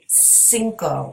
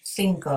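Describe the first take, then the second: First: It begins with an s sound. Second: It begins with a th sound. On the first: "with an S sound" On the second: "like a T H at the beginning"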